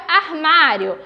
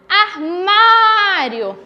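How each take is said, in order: First: Said in the usual way. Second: "armário" with a long, open MÁ; slow "armário", stressed á held out; calling the word. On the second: Shown as a demonstration. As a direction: stretch the middle of "armário" as if calling it. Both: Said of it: "eu chamo pela palavra".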